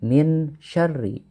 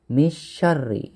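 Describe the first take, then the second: First: The n is pronounced fully and clearly. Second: The n is dropped out entirely. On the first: "jangan min syarri" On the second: "atau misyarri"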